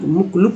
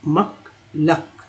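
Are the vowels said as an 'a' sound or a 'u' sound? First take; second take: u sound; a sound. First: The vowels are said as a 'u' sound. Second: The vowels are said as an 'a' sound. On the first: The speaker calls it wrong. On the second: The speaker calls it right.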